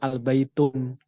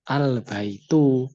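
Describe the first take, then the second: First: The word ends with an added n sound. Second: The word ends on a vowel without n. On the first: The speaker calls it wrong. "Tidak boleh" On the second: The speaker calls it right. "Kan ada, kan ada alnya"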